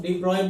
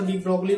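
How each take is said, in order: First: De Broglie said as "de Broy", silent g; others' pronunciation. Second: De Broglie said as "dee BROG-lee"; own pronunciation. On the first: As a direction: say de Broglie French-style, ending in "broy". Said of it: "इसको कई लोग de Broglie बोलते हैं". (de Broglie को "डी ब्रॉय" बोलते हुए) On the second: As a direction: sound the g and l in de Broglie. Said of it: "मैं तो उसको de Broglie बोलता हूँ". (de Broglie को "डी ब्रोगली" बोलते हुए) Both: Shown as a demonstration.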